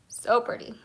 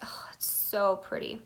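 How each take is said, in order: First: Said in the usual way. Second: Breathy hushed admiration; whispering. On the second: Real, not acted. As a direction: whisper it in awe. Admiring swatch up close.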